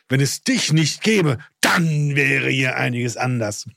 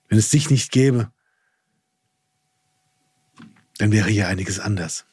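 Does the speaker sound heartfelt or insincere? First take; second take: insincere; heartfelt. First: It sounds cold and insincere. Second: It sounds warm and heartfelt. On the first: The praise is not genuinely meant. The speaker calls it wrong. "Und nicht dieses" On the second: The praise is genuinely meant. The speaker calls it right. "ich mag es von innen heraus"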